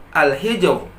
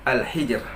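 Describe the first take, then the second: First: Al-hijr with a thick heavy final r, slowly; wrong heavy ra. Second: Al-hijr with a thin light final r, softer; correct thin ra. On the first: Teacher demonstrates the wrong reading. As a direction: show the error: al-hijr, heavy ra. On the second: Teacher gives the correct reading. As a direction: model the right al-hijr, thin ra. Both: Shown as a demonstration.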